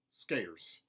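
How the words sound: The R sound is hard and strong. "mountain, where the R sounds are retained, but they are hardened"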